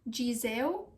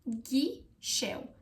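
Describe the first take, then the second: First: The middle consonant is a z sound. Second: The middle consonant is an sh sound. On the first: The speaker calls it wrong. "it's not Gizeu" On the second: The speaker calls it right. "it's ghișeu"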